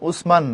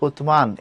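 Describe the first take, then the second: First: The middle consonant is an s sound. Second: The middle consonant is a th sound. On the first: This is the local form, not the Arabic one. The speaker calls it wrong. "আরবি উচ্চারণ উসমান না" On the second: This is the Arabic form. The speaker calls it right. "আরবি উচ্চারণ হচ্ছে উতমান"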